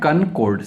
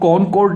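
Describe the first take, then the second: First: The first syllable has a reduced vowel. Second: The first syllable has a full 'o' vowel. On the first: The speaker calls it right. "इसको बोलते हैं कनकॉर्ड" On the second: The speaker calls it wrong. "इसको कॉनकॉर्ड नहीं कहते हैं"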